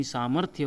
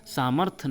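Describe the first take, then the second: First: सामर्थ्य with final YA; full Y glide closing सामर्थ्य; correct pronunciation. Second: सामर्थ्य cut to "samarth"; incorrect pronunciation. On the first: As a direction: say सामर्थ्य as "samarthya". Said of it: "इसका सही वर्तनी". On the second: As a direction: say सामर्थ्य without its final YA. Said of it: "नहीं". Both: Shown as a demonstration.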